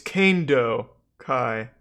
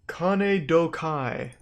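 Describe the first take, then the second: First: The name breaks after the second syllable, Kanedo. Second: The name breaks after the first syllable, Kane. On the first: The speaker calls it right. "It's Kane-do Kai because it's Kane martial arts" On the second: The speaker calls it wrong. "It's not Kane Dokai"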